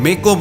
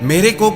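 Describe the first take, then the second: First: The phrase is pronounced in a shortened form. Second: The phrase is pronounced in its full form. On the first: The speaker calls it wrong. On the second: The speaker calls it right.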